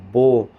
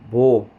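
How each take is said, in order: Both takes have the same delivery.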